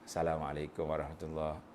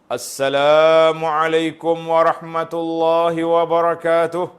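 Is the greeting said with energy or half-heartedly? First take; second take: half-heartedly; energy. First: It is said half-heartedly, without energy. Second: It is said with lively, spirited energy.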